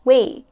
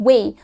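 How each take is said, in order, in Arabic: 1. المقطع يُنطق بصوت العلة 'ay'. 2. المقطع يُنطق بصوت العلة 'ay'.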